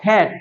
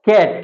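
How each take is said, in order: First: "ক্যাট" with an h puff after the k; k between ক and খ. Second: "ক্যাট" with a plain k; unaspirated k. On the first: Teacher models it for students, aspirated k in "ক্যাট". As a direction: breathe out on the k of "ক্যাট". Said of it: "ক এবং খ এর মাঝামাঝি". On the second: Teacher gives the example to be corrected, plain k in "ক্যাট". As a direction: start "ক্যাট" on k without a puff. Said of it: "ক্যাট না বলে কি বলবো". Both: Shown as a demonstration.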